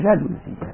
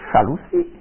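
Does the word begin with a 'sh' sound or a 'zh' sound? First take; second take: zh; sh. First: The word begins with a voiced 'zh' sound. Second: The word begins with a voiceless 'sh' sound. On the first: This is how French speakers say it. "elle dit pas chalousie, elle dit jalousie" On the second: This is how Swiss German speakers say it. "un vilain défaut prononcé par les Suisses allemands"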